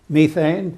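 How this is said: The word is said with a British pronunciation. "in the British uh, pronunciation"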